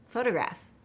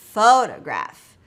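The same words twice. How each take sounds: First: The word is said quickly at a relaxed natural pace. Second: The syllables are drawn out and strongly exaggerated. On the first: "if I wanted to say it naturally" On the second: "I'm exaggerating it for emphasis there"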